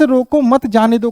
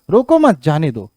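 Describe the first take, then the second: First: "रोको" set apart, then "मत जाने दो" run together; pause after रोको. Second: "रोको मत" run together, then "जाने दो" set apart; "रोको मत" as one order, pause, then "जाने दो"; pause after मत. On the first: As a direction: break right after "रोको", keep "मत" with "जाने दो". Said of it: "इस विराम चिन्ह से". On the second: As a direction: keep "मत" with "रोको", break before "जाने दो". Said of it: "इस रोको मत का". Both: Shown as a demonstration.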